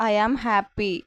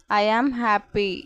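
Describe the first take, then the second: First: Said in the usual way. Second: "I am happy" drawn out slowly, word by word; slow, careful repeat. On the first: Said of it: "teacher repeats the phrase". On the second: Shown as a demonstration. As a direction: say it slowly for learners. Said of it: "teacher repeats the phrase slower". (నెమ్మదిగా, స్పష్టంగా)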